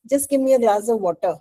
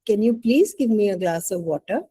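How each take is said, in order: First: Quick, curt order with no please; just tell them to hand it over; blunt demand. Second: Gentle ask, rising on please; polite request. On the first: Teacher demos the rude request to the class, curt and quick. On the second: Teacher demos the polite request to the class, gently. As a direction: ask nicely, leaning on please. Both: Shown as a demonstration. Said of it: "Which one is polite".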